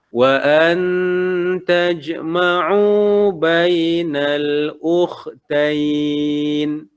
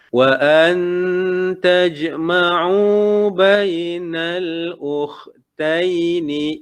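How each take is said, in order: First: The last word ends in 'ain' and stops. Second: The last word ends in 'aini' and continues. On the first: The reader stops here to breathe. "kalau kita nak waqaf" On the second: The reader continues on without stopping. "bila kita nak ambil semula bacaan dia"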